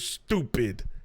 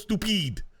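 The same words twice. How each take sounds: First: The stress is on the normal syllable. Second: The stress is on an unusual syllable.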